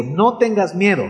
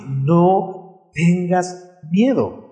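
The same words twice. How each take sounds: First: Said in the usual way. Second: Drawn out, very slow and gentle; slow tender reassurance. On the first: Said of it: "Yo sé por qué te digo". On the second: Shown as a demonstration. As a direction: let each word settle like a promise. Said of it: "quiero decirte".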